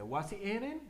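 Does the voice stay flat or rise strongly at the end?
rise. The voice rises strongly, with more force. "hay otros que le metemos más fuerza"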